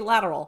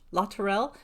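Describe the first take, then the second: First: The name is said like the English word lateral. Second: The name is said the French way, La Tourelle. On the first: This is how local people say the name. "apparently around here we say lateral" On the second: This is how the speaker assumed the spelling was said. "Sounds French, looks French"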